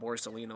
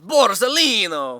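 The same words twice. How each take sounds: First: The name is said plainly, without a put-on accent. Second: The name is said in an exaggerated put-on accent. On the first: The speaker calls it wrong. "It's not Borsellino" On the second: The speaker calls it right. "You have to say it with that accent"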